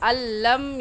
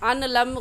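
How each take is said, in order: First: The n merges into a doubled l sound. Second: The n is pronounced separately before the l. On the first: The speaker calls it right. "सही है" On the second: The speaker calls it wrong. "गलत हो जाएगा"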